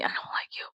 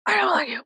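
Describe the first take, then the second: First: Soft unvoiced dislike; whispered. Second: Higher, full-voiced dislike; high declaration. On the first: Telling rich people she dislikes them, whispered. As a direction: breathe it out quietly. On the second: Telling rich people she dislikes them, high and voiced. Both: Shown as a demonstration. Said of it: "contrasted takes".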